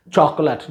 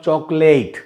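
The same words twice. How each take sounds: First: "Chocolate" as CHOK-lut, weak last vowel; "Chocolate" with an unstressed schwa ending; two-syllable chocolate. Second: "chocolate" as CHOK-late, rhyming with "late"; "chocolate" ending in a long, clear "layt"; mispronounced chocolate. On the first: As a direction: reduce the end of "Chocolate" to a short "lut". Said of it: "notice the pronunciation of this word". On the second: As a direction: give "chocolate" a full "ay" in the last syllable. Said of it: "not chocolate". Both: Shown as a demonstration.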